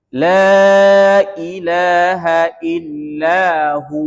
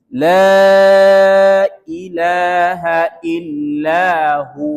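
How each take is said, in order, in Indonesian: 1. Kata terakhir adalah hu yang dipanjangkan. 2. Kata terakhir adalah hu yang dipanjangkan.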